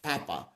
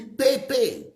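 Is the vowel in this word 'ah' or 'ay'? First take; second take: ah; ay. First: The vowels sound like 'ah'. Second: The vowels sound like 'ay'. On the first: "what you are telling me to pronounce as Papa was not pa, it was not pronounced as A" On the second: "I'm saying it should be Pepe. If it is A, let's pronounce it as A"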